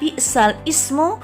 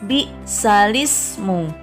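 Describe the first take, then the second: First: Ismu starts separately with its own glottal onset. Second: Ismu is joined smoothly without a glottal onset. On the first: The speaker calls it wrong. "tapi membacanya tidak bi'sal ismu" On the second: The speaker calls it right. "melainkan bi'salismu"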